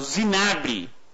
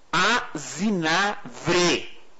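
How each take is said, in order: First: It begins with a z sound and has b. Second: It begins with a vowel and has v. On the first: The speaker calls it wrong. "então eu sempre falei errado" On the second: The speaker calls it right. "O nome certo, o correto, é Azinavre. Com V de vaca"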